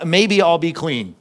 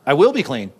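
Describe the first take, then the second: First: Slow, drawn-out "Maybe"; mock uncertainty. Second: Firm stress on "will"; firm correction. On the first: Preacher testing listeners with a misquote, tentative "Maybe". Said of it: "Underline the word maybe". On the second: Preacher correcting the misquote, sure on "will". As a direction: state it as certain, landing on "will". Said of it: "What does he say?". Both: Shown as a demonstration.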